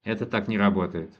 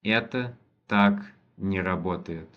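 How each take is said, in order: First: Quicker, natural run-through with the weight on не; natural speed. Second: Slow, careful first reading of the sentence; slow model reading. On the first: Teacher repeating the sentence at natural speed for a student, brisk. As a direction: say it fast and natural, as a native would. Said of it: "teacher repeats at natural speed". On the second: Teacher reading the Russian sentence slowly for a student, deliberate. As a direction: spell it out slowly for the learner. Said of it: "teacher models the Russian sentence". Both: Shown as a demonstration.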